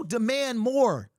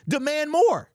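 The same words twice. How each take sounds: First: Drawn-out Demand more, each word weighted; slow emphatic demand. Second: Punchy rally cry. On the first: Urging fans to demand more, slow and firm. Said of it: "repeats demand more slowly". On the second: Rallying fans, loud and punchy. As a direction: Demand more said higher and louder, clipped. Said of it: "repeated rallying line". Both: Acted.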